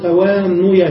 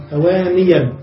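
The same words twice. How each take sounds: First: توانيا said with u after the nun, tawānuyan; wrong damma form. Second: توانيا said with i after the nun, tawāniyan; correct kasra form. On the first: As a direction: say توانيا as "ta-waa-NU-yan". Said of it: "لا نقول توانيا بالضم". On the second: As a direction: say توانيا as "ta-waa-NI-yan". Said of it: "نبدل الضمة كسرة إن كانت اللام ياء". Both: Shown as a demonstration.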